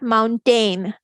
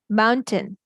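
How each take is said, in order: First: Both syllables carry full, stressed vowels. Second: The second syllable has a weak, reduced vowel. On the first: The speaker calls it wrong. "It's not mountain" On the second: The speaker calls it right. "Most of the time it's a"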